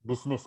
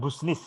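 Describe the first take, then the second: First: The first syllable sounds like 'bis'. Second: The first syllable sounds like 'bus'. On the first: The speaker calls it right. "Ini dibaca bisnis" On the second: The speaker calls it wrong. "bukan busnis ya"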